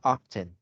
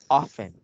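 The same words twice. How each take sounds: First: The T sound is clearly pronounced. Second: The T sound is left silent. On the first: The speaker calls it wrong. "It's not often" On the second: The speaker calls it right. "It's a silent T"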